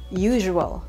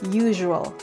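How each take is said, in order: First: The middle consonant sounds like zh. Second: The middle consonant sounds like zh.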